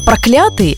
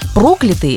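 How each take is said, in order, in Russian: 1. Ударение на втором слоге. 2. Ударение на первом слоге. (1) "это ненавистный" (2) "это тот, кого прокляли"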